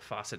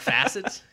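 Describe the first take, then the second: First: The word sounds like 'faucet'. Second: The word sounds like 'facet'. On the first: The speaker calls it wrong. "I'm probably saying that wrong" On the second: The speaker calls it right. "Maybe a facet"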